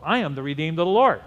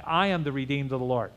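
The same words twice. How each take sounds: First: Quick, firm declaration rising on LORD; brisk proclamation with a strong push on LORD; emphatic declaration. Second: Said in the usual way. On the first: Shown as a demonstration. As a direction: declare it for the congregation, punching LORD. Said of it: "Let the redeemed of the Lord say so".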